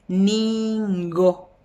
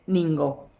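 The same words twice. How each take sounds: First: "ningo" con la primera sílaba larguísima y el ngo marcado; pronunciación exagerada. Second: Said in the usual way. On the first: Shown as a demonstration. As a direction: estira "niiin-go" para que se oiga el ngo. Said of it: "Un poco exagerado". ("ningo" muy lento y exagerado) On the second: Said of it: "Pero es ningo".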